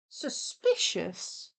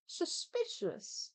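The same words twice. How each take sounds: First: Slow whispered word. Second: Slow, high whispered word. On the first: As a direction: whisper it slowly, suspicious. Dramatic whisper. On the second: Higher whisper repeat. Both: Pretend.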